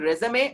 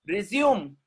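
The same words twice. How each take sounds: First: Resume said REZ-uh-may; three-syllable resume ending in "may"; French-style pronunciation. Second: Resume said rih-ZYOOM; two-syllable resume, falling at the end; verb pronunciation. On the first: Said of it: "If you are writing resume". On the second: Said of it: "If you are writing like this". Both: Shown as a demonstration.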